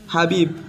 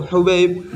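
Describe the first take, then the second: First: The name starts with an 'a' vowel. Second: The name starts with a 'u' vowel. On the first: The speaker calls it wrong. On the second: The speaker calls it right.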